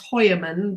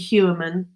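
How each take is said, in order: First: The name is pronounced the German way. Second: The name is pronounced the American way. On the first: "I used to study German, so for me it's" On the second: "you get American um, pronunciations. So it could be"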